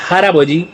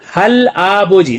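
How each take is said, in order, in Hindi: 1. अंतिम व्यंजन अगले स्वर से जुड़ जाता है। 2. अक्षर अलग रखे जाते हैं, बिना जोड़े। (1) "तो बोला जाएगा हराबोजी" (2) "आगे लिखा है हल आबोजी"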